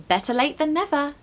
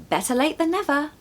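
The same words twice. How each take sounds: Both takes have the same delivery.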